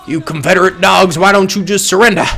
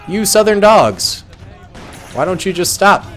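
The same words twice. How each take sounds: First: Put-on southern accent. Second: Said in the usual way. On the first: Gamer taunting Confederate troops in a mock Southern accent. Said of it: "Why am I doing a southern accent". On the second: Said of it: "I should literally just talk like normal".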